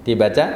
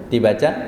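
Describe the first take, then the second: Both takes have the same delivery.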